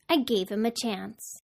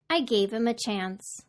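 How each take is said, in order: First: The h in 'him' is dropped entirely. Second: The h in 'him' is dropped entirely.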